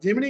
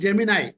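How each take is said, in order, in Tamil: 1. இந்த வார்த்தை "ee" ஒலியில் முடிகிறது. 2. இந்த வார்த்தை "eye" ஒலியில் முடிகிறது. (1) "ஜெமினி கிடையாது" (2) "ஜெமினாய் அப்படின்னு ப்ரொனவுன்ஸ் பண்றான்"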